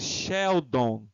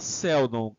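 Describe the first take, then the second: First: The word begins with an sh sound. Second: The word begins with a plain s sound. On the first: The speaker calls it right. "a gente tem esse som de X, né? De C H" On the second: The speaker calls it wrong. "Não fala Seldon"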